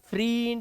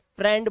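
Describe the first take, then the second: First: The vowel sounds like a long 'ee'. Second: The vowel sounds like a short 'eh'. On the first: The speaker calls it wrong. "इसे फ्रींड या या फ्रेंड या फ्राइंड नहीं बोलते" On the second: The speaker calls it right. "फ्रेंड बोलते हैं"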